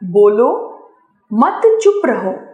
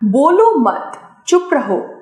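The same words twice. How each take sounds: First: There is a pause right after bolo. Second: The phrase is read without a clear pause. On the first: The listener is told to speak. "दूसरे वाक्य में बोलने के लिए कहने का भाव प्रकट हो रहा है" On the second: Neither speaking nor silence is clearly asked for. "पहले वाक्य में कोई भाव स्पष्ट नहीं है"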